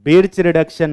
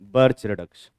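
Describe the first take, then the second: First: The first vowel sounds like 'i' in 'bit'. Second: The first vowel sounds like 'ir' in 'bird'. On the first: The speaker calls it wrong. "बिर्च reduction नहीं" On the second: The speaker calls it right. "इसको हम लोग बर्च reduction बोलते हैं"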